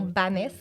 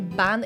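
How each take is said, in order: First: The name ends with an audible final 's' sound. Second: The name ends without a final 's' sound. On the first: The speaker calls it wrong. "et non Banès" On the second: The speaker calls it right. "C'est bien Ban"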